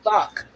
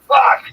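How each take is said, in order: First: It is said weakly, without force. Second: It is said forcefully, with real feeling.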